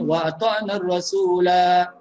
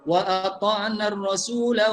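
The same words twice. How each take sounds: First: The last word ends with a long final vowel. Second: The last word ends with a short final vowel. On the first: The reciter stops after this phrase. "Tapi kalau kita berhenti" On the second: The reciter continues into the next verse. "kalau kita sambung daripada ayat enam puluh enam ke enam puluh tujuh"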